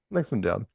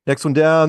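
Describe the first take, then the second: First: Said in the usual way. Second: Calls "Next one down" again, louder and clearer; repeating "Next one down" with more volume. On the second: Real, not acted. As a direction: say "Next one down" loud so the room hears.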